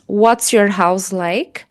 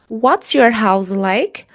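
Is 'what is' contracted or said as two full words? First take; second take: contracted; contracted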